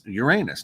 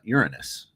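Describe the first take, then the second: First: It is said the older, formerly used way. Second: It is said the newer, current way. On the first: This is how it was said in the past. "it was Uranus" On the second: This is how it is said today. "not Uranus"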